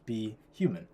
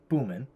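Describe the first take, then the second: First: The name is said as two words, be human. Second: The name is squeezed into one word, boomin. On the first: The speaker calls it right. "we want to pronounce it as be human" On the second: The speaker calls it wrong. "if you just read it phonetically"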